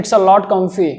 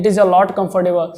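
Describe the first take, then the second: First: It's a lot comfy dicho corto y rápido; short comfy. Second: Said in the usual way. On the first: Shown as a demonstration. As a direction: say comfy, not comfortable. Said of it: "बोल सकते हैं". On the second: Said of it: "comfortable बोलते हैं".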